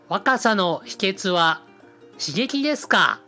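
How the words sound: It is said slowly in a natural speaking voice. The speaker calls it wrong. "信代さんの声じゃなくてやると変なんですよ。"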